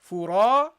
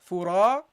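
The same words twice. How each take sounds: No difference in how they are said.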